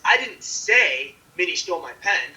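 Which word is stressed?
say. The stress is on the word say. It was indicated some other way, not said. "you didn't say it"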